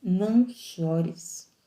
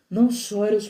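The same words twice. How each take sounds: First: Slow tender plea. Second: Said in the usual way. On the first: Acted. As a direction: stretch "Não" long and gentle. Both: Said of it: "que Jesus veio dizer pra você".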